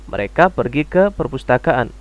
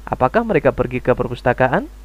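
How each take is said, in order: First: "Mereka pergi ke perpustakaan" as a plain statement; flat statement intonation. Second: "Apakah mereka pergi ke perpustakaan" with a rise at the end; question intonation. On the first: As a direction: let "perpustakaan" fall at the end. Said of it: "intonasinya datar". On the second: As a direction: end "perpustakaan" on an asking lift. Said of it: "seperti kamu ketika ingin bertanya". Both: Shown as a demonstration.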